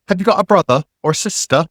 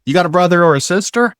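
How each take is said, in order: First: Put-on British RP, higher pitched; fake received pronunciation. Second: Said in the usual way. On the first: Asking a girl for a second try, in fake RP. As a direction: imitate a fake English RP accent. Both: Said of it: "I spoke with a fake received pronunciation".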